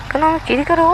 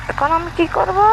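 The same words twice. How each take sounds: The two takes are said the same way.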